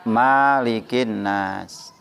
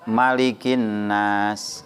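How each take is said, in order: First: The first vowel of Malik is long. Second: The first vowel of Malik is short. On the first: This is the reading in Al-Fatihah. "kalau dalam Al-Fatihah dibaca" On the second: This is the reading in Surah An-Nas. "dibaca pendek"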